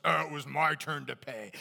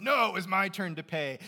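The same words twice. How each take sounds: First: Loud, protesting at the register; mock protest. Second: Louder, higher, insisting; the first guy won't let anyone else pay; mock protest. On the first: Friends at the register arguing over the bill, mock protest. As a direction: insist it was your turn, louder. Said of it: "everyone else says". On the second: First guy at the register insisting on paying, mock protest. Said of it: "The first guy says".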